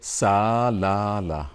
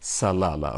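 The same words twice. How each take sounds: First: The unstressed vowel is said full, not reduced. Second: The unstressed vowel is reduced to a schwa. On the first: The speaker calls it wrong. "We don't say salala" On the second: The speaker calls it right. "So there is a shwa here"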